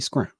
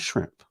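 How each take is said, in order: First: It is said the Southern way, with 'scr'. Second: It is said with the standard 'shr' sound.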